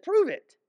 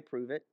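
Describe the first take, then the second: First: A much higher, jeering "Prove it."; mocking crowd. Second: A soft, low "Prove it." said almost under the breath; quiet prove it. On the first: Crowd mockingly challenging Jesus, high jeering voice. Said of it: "He said". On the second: Shown as a demonstration. Preacher quietly daring a boaster to prove it. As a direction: murmur "Prove it." as a calm dare. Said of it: "I might say".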